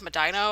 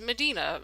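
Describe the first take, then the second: First: It is said the way Ohio locals say it. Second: It is said the way West Coast people say it. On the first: This is the local Ohio pronunciation. "back up in Ohio we have Medina" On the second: This is how people from elsewhere pronounce it. "I also have friends that pronounce it Medina. usually more of those that are from like the West Coast"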